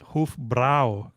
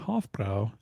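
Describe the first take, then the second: First: Hofbrau is said imitating a German pronunciation. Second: Hofbrau is said with a plain American pronunciation. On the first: The speaker calls it right. "it was like it was Hofbrau" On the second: The speaker calls it wrong. "I pronounced it wrong, and it wasn't Hofbrau"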